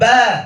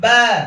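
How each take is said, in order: First: The vowel is an open 'a' sound. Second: The vowel is an open 'a' sound.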